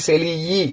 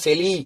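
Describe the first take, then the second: First: The final vowel is split off and said separately. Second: The final vowel stays joined to the word. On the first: The speaker calls it wrong. "பிரிச்சு சொல்லக்கூடாது" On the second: The speaker calls it right. "செலி அப்படின்னு தான் சொல்லணும்"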